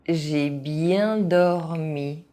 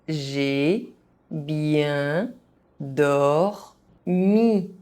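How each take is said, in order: First: It is said at an ordinary speaking pace. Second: It is said very slowly, syllable by syllable. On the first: This is the pace learners should use. "at a normal pace" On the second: Each syllable can be followed. "very slowly so that you understand how each syllable is pronounced"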